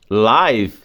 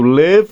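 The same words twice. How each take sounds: First: The vowel is long, as in 'five'. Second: The vowel is short, as in 'give'. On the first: It means broadcast in real time. "encaixando ele nessa regra agora, live significa ao vivo" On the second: It is the verb meaning to reside or be alive. "Eu leio live como se não tivesse o E, aí é o verbo viver"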